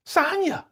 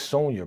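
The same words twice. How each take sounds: First: "Sonya" called out very high as SAHN-ya; mispronounced name call. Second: "Sonya" with a long OH, SOHN-ya; corrected name pronunciation. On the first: Retold or imitated. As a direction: mimic her calling "Sonya" with an AH, high-pitched. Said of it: "Why is she calling her Sonya". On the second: Shown as a demonstration. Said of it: "Her name is Sonya".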